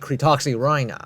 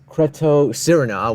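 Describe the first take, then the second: First: The middle is said with a 'ks' sound. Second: The middle is said without a 'ks' sound. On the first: The speaker calls it right. "It's supposed to be called the Cretoxyrhina" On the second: The speaker calls it wrong. "how I used to pronounce this one"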